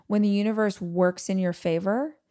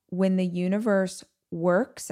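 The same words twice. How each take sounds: First: Said in the usual way. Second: "works" set apart at the end, as if in quotes; air quotes on "works". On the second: Shown as a demonstration. Speaker questioning what favor means, air quotes on "works". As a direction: hold "works" up as a so-called word. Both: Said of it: "I'm using air quotes".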